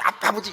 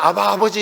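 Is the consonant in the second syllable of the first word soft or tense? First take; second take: tense; soft. First: The first word is said with a hard, tense consonant. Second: The first word is said with a soft, gentle consonant. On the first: This is the original pronunciation, but it sounds grating. The speaker calls it wrong. "굉장히 신경이 거슬려요" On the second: This is the familiar, customary way of calling. The speaker calls it right. "부드럽게 부드럽게 이렇게 부르다가"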